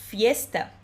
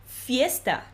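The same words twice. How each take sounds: Both takes have the same delivery.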